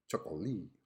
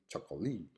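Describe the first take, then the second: First: Three syllables, stress on the third. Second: The same.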